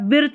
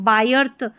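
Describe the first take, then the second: First: The vowel sounds like short ih. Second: The vowel sounds like eye. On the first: "इसको बायर्थ या बिर्थ नहीं पढ़ेंगे" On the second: "इसको बायर्थ या बिर्थ नहीं पढ़ेंगे"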